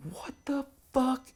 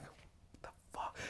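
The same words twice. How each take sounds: First: Much higher, slow, baffled; can't believe your eyes; shocked disbelief. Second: Slow, breathless whisper of disbelief; stunned whisper. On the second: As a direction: mouth it in shock. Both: Retold or imitated. Horrified reaction to attic.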